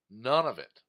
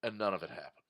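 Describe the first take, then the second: First: None punched louder at the start; stress on none. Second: Said in the usual way. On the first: Real, not acted. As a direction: hit None hard, then let it fall.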